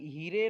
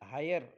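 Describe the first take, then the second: First: The vowel sounds like short 'i'. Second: The vowel sounds like 'eye'. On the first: The speaker calls it wrong. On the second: The speaker calls it right.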